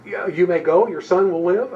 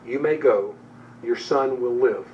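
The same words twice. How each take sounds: First: Mock disbelief, a bit louder and rising; incredulous echo. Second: Said in the usual way. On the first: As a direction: throw it back as if that can't be all. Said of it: "Is that it?". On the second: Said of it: "And Jesus replies to him".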